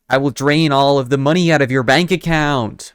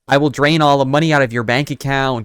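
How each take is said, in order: First: It is said in a put-on vampire voice. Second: It is said in an imitated American accent. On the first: "it's vampire" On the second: "I'm trying to do an American accent"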